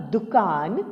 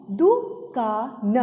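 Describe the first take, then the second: First: Said in the usual way. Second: दुकान split slowly into दु, का, न; syllable by syllable. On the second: Shown as a demonstration. Teacher reading the paragraph word दुकान, syllable by syllable. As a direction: sound out दुकान with gaps. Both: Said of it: "अब इसे पढ़ते हैं".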